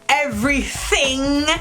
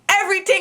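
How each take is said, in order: First: The middle sound is a th sound. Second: The middle sound is a plain t sound. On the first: The speaker calls it wrong. "there are no T H's. I don't want to hear you say everything" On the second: The speaker calls it right. "I need to hear a everything"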